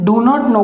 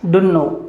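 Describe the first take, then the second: First: Three separate words are said in full. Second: The words blend into one short word. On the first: "डू नॉट नो का एक ही word सामने निकल करके आ गया" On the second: "इसका जो उच्चारण होगा वो होगा डुन्नो"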